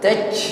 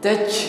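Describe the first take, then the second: First: The final j ends with a puff of air. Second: The same.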